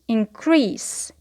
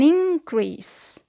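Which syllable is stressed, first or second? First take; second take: second; first. First: The stress is on the second syllable. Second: The stress is on the first syllable. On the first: It is used as a verb. "here the stress is on the second syllable" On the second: It is used as a noun. "the stress is on the first syllable"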